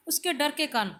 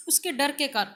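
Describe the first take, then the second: First: Said in the usual way. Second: Words broken by a real cough; through a cough. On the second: Real, not acted. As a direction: push the phrase out through a cough. (खाँसी के बीच बोला गया)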